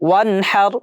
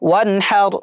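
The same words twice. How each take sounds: No difference in how they are said.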